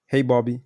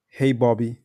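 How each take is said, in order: First: Hey Bobby said level and straight; forward inflection. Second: Hey Bobby falling down at the end; downward inflection. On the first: Demoing to Bobby for prospects, straight level tune. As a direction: keep Hey Bobby flat and even to the end. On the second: Demoing to Bobby for prospects, falling tune. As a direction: drop the tune on Bobby with a firm close. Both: Shown as a demonstration.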